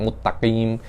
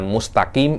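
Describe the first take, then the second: First: The s is merged into a doubled t. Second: A clear s sound comes before the t. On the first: The speaker calls it wrong. "sinnya Anda masukkan ke ta" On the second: The speaker calls it right. "Jangan mustaqim Anda cakap muttaqim"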